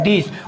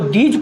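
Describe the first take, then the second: First: The word ends with a z sound. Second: The word ends with a j sound. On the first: The speaker calls it right. "इसमें एक बिंदी होती है... इसको आप लोग दीज पढ़ते हैं" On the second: The speaker calls it wrong. "यदि आप लोग इसको दीज पढ़ेंगे तो आप लोगों का इसको गलत माना जाएगा"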